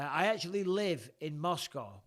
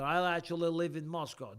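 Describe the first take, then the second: First: Said in the usual way. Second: Put-on Russian accent. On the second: Host re-reading a Moscow viewer's message, Russian accent. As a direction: say it like a mock Russian. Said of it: "I can do a Russian accent".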